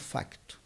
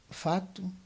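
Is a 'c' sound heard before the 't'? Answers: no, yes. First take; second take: yes; no. First: It is said with a 'c' sound before 't'. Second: It is said without a 'c' sound before 't'.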